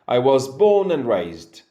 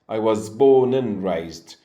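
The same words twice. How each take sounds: First: The word 'and' shrinks to a nasal 'n'. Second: The same.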